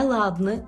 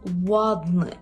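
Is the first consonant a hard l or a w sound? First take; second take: hard l; w sound. First: The first consonant is a hard l. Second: The first consonant is a w sound. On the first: The speaker calls it wrong. "Не «ладний»" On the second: The speaker calls it right. "маємо тут губний звук"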